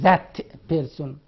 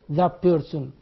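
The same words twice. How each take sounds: First: The word 'that' ends with a t sound. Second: The word 'that' ends with a p sound. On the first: The speaker calls it wrong. "We don't say that person" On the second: The speaker calls it right. "that sound in that change to pa like in person"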